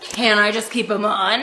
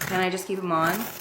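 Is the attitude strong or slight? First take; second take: strong; slight. First: It is said with strong attitude. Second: It is said with slight attitude.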